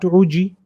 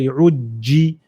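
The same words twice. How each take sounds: First: The j sound is short and single. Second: The j sound is doubled and held. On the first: The speaker calls it wrong. "not Uji" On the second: The speaker calls it right. "we go to the letter before it and we say Uji"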